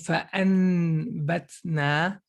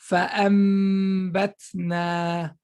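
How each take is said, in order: First: A plain n sound comes before the b. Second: A nasalized m sound comes before the b. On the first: The speaker calls it wrong. "Instead of saying" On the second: The speaker calls it right. "Look how we flipped the noon. we say"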